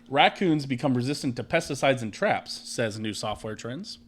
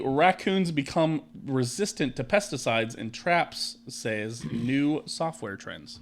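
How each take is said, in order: First: It is read smoothly with natural sentence emphasis. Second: It is read choppily, like a child reading aloud.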